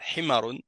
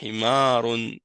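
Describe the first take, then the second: First: The vowel after the m is short. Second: The vowel after the m is long. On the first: The speaker calls it wrong. "c'est pas Himarun" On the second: The speaker calls it right. "c'est Himarun"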